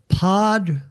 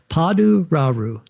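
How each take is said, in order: First: The name is said quickly. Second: The name is said slowly and carefully. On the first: "I said it a little bit faster there" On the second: "I have to hyphenetically say that"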